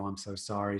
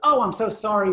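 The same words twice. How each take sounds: First: The voice is flat with little pitch movement. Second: The voice is lively with varied pitch. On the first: The speaker is only following a script. The speaker calls it wrong. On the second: The speaker believes what they are saying. The speaker calls it right.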